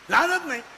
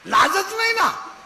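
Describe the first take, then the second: First: Said in the usual way. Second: Scornful cry. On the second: Real, not acted. Preacher mocking shameless girls.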